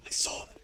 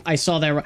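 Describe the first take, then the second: First: Much softer, almost breathless; hushed. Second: Said in the usual way. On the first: Real, not acted. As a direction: drop to a hush. Hushed after gasp.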